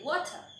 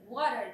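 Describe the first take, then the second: First: The T is said clearly as a T. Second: The T is said like a soft R sound. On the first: "they like produce more the sound of the T" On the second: "They pronounce like the T like an R"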